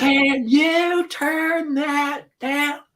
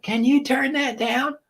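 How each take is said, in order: First: Put-on very high, very slow drawn-out kid voice; exaggerated son. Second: Put-on high, slow kid voice asking; imitating son. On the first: Son asks again over the music, hammed-up slow kid voice. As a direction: stretch it out like a whiny boy. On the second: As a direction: plead like a kid over loud music. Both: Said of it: "He'll be like".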